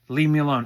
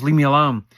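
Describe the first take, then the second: First: Said in the usual way. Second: Loud, pleading leave-me-alone; louder mock yell of a man who wants to be left alone; imitating a yell. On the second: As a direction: bark it out like he wants everyone gone. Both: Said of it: "he's going like this".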